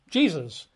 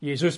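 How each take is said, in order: First: Said in the usual way. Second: Jesus said as yay-ZOOS; Y sound opening Jesus, stress at the end; Greek pronunciation. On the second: Shown as a demonstration. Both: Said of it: "For us, Jesus becomes, you know, Jesus".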